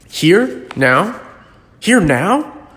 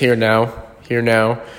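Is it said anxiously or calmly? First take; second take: anxiously; calmly. First: It is said in an anxious, excited way. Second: It is said in a calm, flat way.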